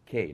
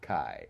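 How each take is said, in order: First: The vowel sounds like the one in day. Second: The vowel sounds like the one in eye. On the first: The speaker calls it right. "it's K" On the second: The speaker calls it wrong. "not Kai, as most people want to pronounce it"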